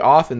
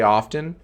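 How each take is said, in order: First: The T sound is left out. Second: The T sound is clearly pronounced. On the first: The speaker calls it wrong. "if you just say often, then it sounds like oven" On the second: The speaker calls it right. "I wanted to enunciate and say often"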